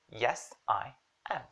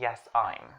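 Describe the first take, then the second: First: The final I am is said as two full words. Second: The final I am is contracted to one syllable. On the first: The speaker calls it right. "You're agreeing" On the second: The speaker calls it wrong. "that's super awkward"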